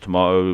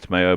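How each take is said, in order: First: It is said in a British accent. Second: It is said in an American accent. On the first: "Us Brits like to pronounce it as tomato" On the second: "Americans pronounce it as tomato"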